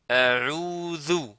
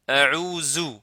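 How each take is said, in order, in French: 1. La consonne du milieu est un th doux. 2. La consonne du milieu est un son z. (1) "alors que ici c'est zel" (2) "zou, la lettre za"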